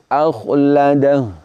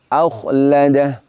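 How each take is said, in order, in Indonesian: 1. Kata ini berakhir dengan h pendek tanpa vokal. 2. Kata ini berakhir dengan h pendek tanpa vokal.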